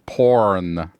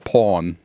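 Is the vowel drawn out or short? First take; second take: drawn out; short. First: The vowel is drawn out and emphasized. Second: The vowel is short and unemphasized.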